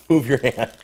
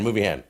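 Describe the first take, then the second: First: Sharp raised warning; louder, urgent. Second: Said in the usual way. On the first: Real, not acted. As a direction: repeat it louder, higher.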